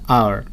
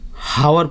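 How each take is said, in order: First: The word begins with a vowel sound. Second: The word begins with an h sound. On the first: The speaker calls it right. "लेकिन उसका pronunciation होता है आर" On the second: The speaker calls it wrong. "हावर पढ़ता है लोग उसको"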